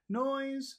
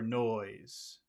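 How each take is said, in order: First: The word is said on a high pitch. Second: The word is said on a low pitch.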